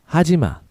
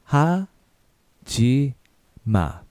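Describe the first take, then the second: First: It is said at a faster pace. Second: It is said at a slower pace.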